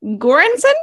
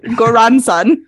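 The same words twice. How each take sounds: First: "Göransson?" tried again as "KOR-an-suh" with a high questioning rise; testing "Göransson?" as "KOR-an-suh", unsure; doubtful pronunciation. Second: "Göransson" said loud and firm as "KOR-an-son"; insisting on "Göransson" as "KOR-an-son"; defiant pronunciation. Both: Real, not acted. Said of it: "I'm standing by it".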